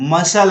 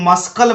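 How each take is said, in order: First: No k sound is heard after the s. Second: A k sound is pronounced after the s. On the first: The speaker calls it right. "मसल है" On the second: The speaker calls it wrong. "मस्कल मत पढ़ना"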